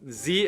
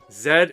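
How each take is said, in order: First: The letter is said the American way. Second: The letter is said the British way. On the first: "Z is American" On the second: "Z is uh, U K"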